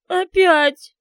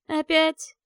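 First: Опять wailed high and loud through sobs; Опять as a falling sob; sobbing. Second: Опять grumbled with a weary rise; Опять as a put-upon sigh; grumbling. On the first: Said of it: "Её голос булькал от подступающих к груди рыданий". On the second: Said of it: "проворчал ... Морф". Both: Acted.

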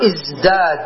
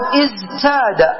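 First: "ازداد" with d after z; changed form. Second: "ازداد" with t after a voiced z; underlying form. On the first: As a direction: say "ازداد" as izdād, the t turned to d. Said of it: "فنقلب التاء دالا ونقول ازداد". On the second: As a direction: say "ازداد" as iz-tāda, z and t separated. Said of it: "تقول ازداد في الأصل". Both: Shown as a demonstration.

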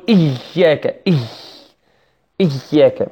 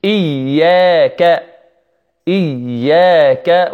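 First: إياك with the doubled y squeezed until breath hisses out; strained, airy "iyy" in إياك; overpressed y. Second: إياك slow, with pure i and held doubled y; drawn-out careful إياك with crisp hamza; correct iyyaka. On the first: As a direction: demonstrate the fault, pushing air through the y of إياك. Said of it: "فيضغط على الياء والمشددة زيادة". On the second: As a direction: model إياك cleanly, "iy-yaa-ka", no escaping breath. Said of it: "الذي يجب علينا نقول". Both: Shown as a demonstration.

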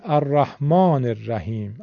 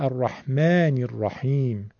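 First: الرحمن الرحیم with back "aa" and e: "ar-rahmaaner-rahim"; Persian pronunciation. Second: الرحمن الرحیم with front "aa" and i: "ar-rahmænir-rahiim"; Arabic pronunciation. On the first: Teacher showing Persian habit, back "aa" in الرحمن الرحیم. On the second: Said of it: "عرب میگه". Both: Shown as a demonstration.

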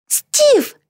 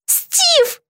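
First: High, delighted call; joyful cry. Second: High, grieving moan of a name; anguished moan. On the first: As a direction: call out to a friend with high-pitched joy. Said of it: "обрадовалась Битти". (радостный возглас высоким голосом) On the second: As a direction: moan for a hurt friend, high and falling. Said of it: "простонала Битти". (горестный стон высоким голосом) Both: A narrator's reading.

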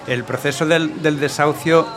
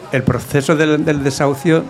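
No difference in how they are said.

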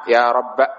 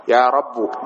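First: "رب" ending in short a; fatha only. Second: "رب" slowly, ending in u; damma ending. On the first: Teacher dropping the alif, "رب" keeping its fatha. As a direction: say "رب" as rabba. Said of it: "الفتحة موجودة". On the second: Teacher showing the weak sixth form, "رب" with damma. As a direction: say "رب" as rabbu. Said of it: "فتضم". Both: Shown as a demonstration.

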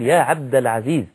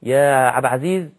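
First: عبد العزيز said in full, every letter; correct pronunciation. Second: عبد said as اب, the ع of عبد slurred; wrong pronunciation. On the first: Preacher giving the proper way to call the name, carefully. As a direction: sound both words of the name clearly. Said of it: "إنما نقول". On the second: Preacher imitating a careless caller, name slurred. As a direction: blur عبد العزيز into one word. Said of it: "ما ينفعش، لا يجوز". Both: Shown as a demonstration.

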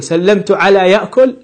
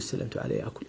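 First: "سلمت على يأكل" asked with a high rising tune on يأكل; testing question. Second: "سلمت على يأكل" whispered, يأكل dropped low and softer; whispered wrong example. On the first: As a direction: try the odd phrase out as a question, يأكل lifted high. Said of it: "هل يجوز أن نقول". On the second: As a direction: breathe the wrong phrase out as a rejected example. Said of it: "لا يجوز". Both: Shown as a demonstration.

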